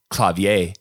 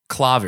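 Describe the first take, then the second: First: It has a French accent. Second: It has a German accent, stressed at the start. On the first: "The French, which is probably the most correct way of saying it" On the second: "Germans say clavier ... So they accent the beginning"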